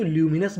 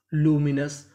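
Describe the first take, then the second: First: ल्यूमिनस with a y-glide, "lyoo"; alternative pronunciation. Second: लूमिनस with a pure "loo" start; no y-glide after the l in लूमिनस; first pronunciation. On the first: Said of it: "ल्यूमिनस भी पढ़ सकते हैं". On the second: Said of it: "तो meaning क्या बन गई". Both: Shown as a demonstration.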